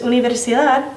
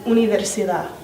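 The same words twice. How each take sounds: First: The final d sound is pronounced. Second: The final d sound is dropped. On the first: "no dices universidad" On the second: "edición de la D"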